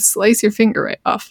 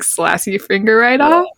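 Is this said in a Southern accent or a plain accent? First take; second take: plain; Southern. First: It is said in the speaker's usual accent. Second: It is said in a Southern US accent.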